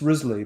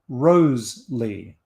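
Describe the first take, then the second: First: The first syllable sounds like riz. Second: The first syllable sounds like rose. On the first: This is how modern scholars say the name. "Modern scholars pronounce his name as Risley" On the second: This is how the name was said in its own time. "Shakespeare and others pronounced it Rose-lee"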